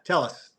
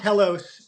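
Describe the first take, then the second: First: It sounds like the two words 'tell us'. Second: It is said differently, not like 'tell us'. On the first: The speaker calls it right. "yeah, yeah. Tell us" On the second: The speaker calls it wrong. "not Telos"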